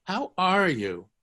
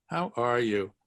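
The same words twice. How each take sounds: First: How are you? stretched out slowly; slow model. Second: Said in the usual way. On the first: Shown as a demonstration. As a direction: spell out the phrase slowly for learners. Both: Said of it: "notice what Hebrew does".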